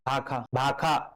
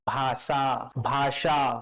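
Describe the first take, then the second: First: The middle consonant is a kh sound. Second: The middle consonant is an sh sound. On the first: It takes less effort to say. "भाखा खिंचाबे नहीं करे थे" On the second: It takes more effort to say. "ज्यादा ज्यादा ताकत लगा थी"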